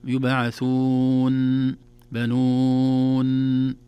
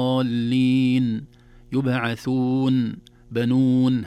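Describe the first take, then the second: First: بنون with the nun stretched far too long, as if doubled; wrong recitation, nun overstretched; overlong nun, wrong way. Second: يبعثون بنون recited slowly with a short clear nasal nun; proper tajweed recitation of بنون; correct nun. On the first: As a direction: drag out the nun in بنون like a shadda. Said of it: "لا نقول". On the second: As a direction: give بنون a measured ghunna, no longer. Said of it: "فنقول". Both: Shown as a demonstration.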